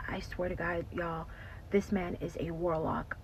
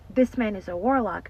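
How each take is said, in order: First: Whispered, secretive admission; hushed confession. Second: Said in the usual way. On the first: Retold or imitated. Ashley confiding to her friends in a hushed whisper. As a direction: lean in and breathe it like a secret.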